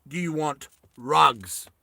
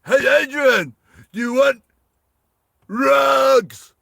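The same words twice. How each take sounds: First: Said in the usual way. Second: High, loud mock holler; yelling out. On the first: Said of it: "He thinks he's saying". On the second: Misheard climber yelling an offer to Adrian, mock shout. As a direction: holler it, stretching the last word. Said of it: "he thinks he's yelling out".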